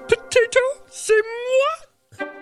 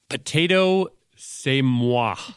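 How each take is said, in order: First: It is said in a Miss Piggy voice. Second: It is read in her normal voice.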